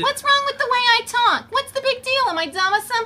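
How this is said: It is said in a put-on character voice.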